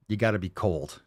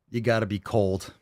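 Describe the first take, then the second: No difference in how they are said.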